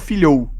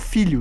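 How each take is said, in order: First: The final vowel glides into an ou sound. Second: The final vowel is a plain short o. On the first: The speaker calls it wrong. "não tenho um filhou" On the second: The speaker calls it right. "você fala, eu tenho um filho"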